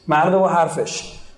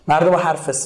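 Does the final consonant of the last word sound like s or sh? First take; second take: sh; s. First: The last word ends with an sh sound. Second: The last word ends with an s sound. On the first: This is the standard Persian form. "اما شیش و سه" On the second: This is the Bakhtiari dialect form. "این بختیاری ها شه و سه تلفظ میکنن"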